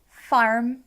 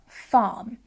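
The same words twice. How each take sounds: First: The word is said with a clear R sound. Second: The word is said without an R sound. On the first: This is the West Country or American way of saying it. "So you've got that R there" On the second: This is the Southern England way of saying it. "because I don't really use the rhotic R in my accent"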